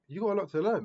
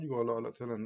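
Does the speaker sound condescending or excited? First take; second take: excited; condescending. First: It is said in an excited, encouraging tone. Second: It is said in a condescending, belittling tone. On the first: There is much exciting growth ahead. The speaker calls it right. "That's exciting" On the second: The listener is seen as inferior. The speaker calls it wrong. "Looking down on you"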